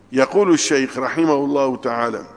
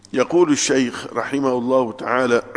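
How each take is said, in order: No difference in how they are said.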